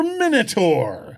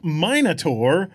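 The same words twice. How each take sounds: First: "Minotaur" with a short i, MIN-uh-tor; "Minotaur" as MIN-uh-tor, drawn out; second pronunciation. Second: "Minotaur" with a long i, MINE-uh-tor; "Minotaur" as MY-nuh-tor, drawn out; first pronunciation. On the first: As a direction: say "Minotaur" starting like "minute". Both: Shown as a demonstration. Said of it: "is it pronounced".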